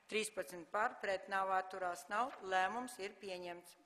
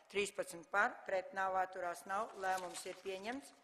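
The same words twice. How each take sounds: The two takes are said the same way.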